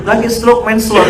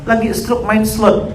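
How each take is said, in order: First: Exasperated stroke hit hard; louder exclamation. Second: Mocking main slot drawn slow; slow mocking line. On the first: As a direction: stress on stroke, loud and falling. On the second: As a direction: stress on main, drawn out slowly. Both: Shown as a demonstration.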